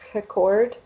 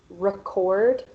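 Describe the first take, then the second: First: The word begins with an H-like sound. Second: The word begins with an English R sound. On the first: The speaker calls it wrong. "pronouncing the R as an H sound" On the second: The speaker calls it right. "instead of record"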